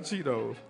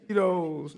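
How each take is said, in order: First: "Cheetos" said with a soft CH, as CHEE-tohs. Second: "Cheetos" said with a hard K, as KEE-tohs; keto with a K. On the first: Preacher naming the misheard snack, "Cheetos" said with CH. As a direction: say "Cheetos" starting with a CH sound. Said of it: "You talking about Cheetos". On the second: Preacher correcting the congregation's mishearing, "Cheetos" said with a K. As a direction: say "Cheetos" starting with a K sound. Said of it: "I said keto". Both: Shown as a demonstration.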